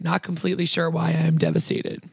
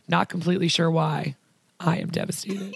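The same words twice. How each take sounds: First: It runs on with no pause after why. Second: There is a pause after why.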